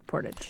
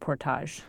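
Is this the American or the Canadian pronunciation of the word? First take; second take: American; Canadian. First: It is pronounced the American way. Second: It is pronounced the Canadian way. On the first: "here in the U.S., they say portage" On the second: "in Canada, we pronounce it portage"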